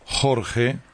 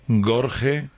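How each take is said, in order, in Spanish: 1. Empieza con un sonido h gutural y áspero. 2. Empieza con un sonido g fuerte. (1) "Jorge, as usual" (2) "Si metemos la G a todo"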